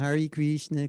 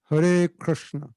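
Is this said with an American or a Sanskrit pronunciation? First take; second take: American; Sanskrit. First: It is said with an American-style pronunciation. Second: It is said with a Sanskrit-style pronunciation. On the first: The speaker calls it wrong. "That's how, like, an American would chant" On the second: The speaker calls it right. "it's not really natural to say it this way, but it's like this"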